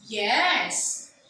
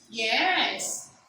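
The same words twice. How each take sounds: First: The pitch rises and then falls. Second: The same.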